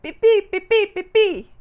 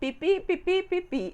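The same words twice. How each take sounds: First: The chirps sound sure and confident. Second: The chirps sound tentative and hesitant.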